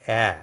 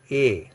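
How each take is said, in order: First: "a" held as a flattened open eh; flattened vowel. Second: "a" as a closed ay, as in acute E; acute vowel. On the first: French teacher asking students to follow attentively, flattened vowel. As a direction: spread the lips wide on "a". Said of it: "more flattened pronunciation". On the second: French teacher recalling the previous accent for contrast, acute vowel. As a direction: say "a" as a narrow, unflattened ay. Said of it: "in aksa tegu a". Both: Shown as a demonstration.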